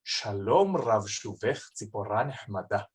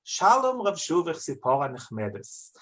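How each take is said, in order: First: Yemenite Hebrew, "Nechmada" with a throaty guttural h, lower and majestic; Yemenite Hebrew pronunciation. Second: Round, Central European reading of "Shalom Rav Shuvich Tzipora Nechmedes". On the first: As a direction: recite "Shalom Rav Shuvich Tzipora Nechmada" the Yemenite way, deep from the throat. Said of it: "in the Yemenite pronunciation". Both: Shown as a demonstration.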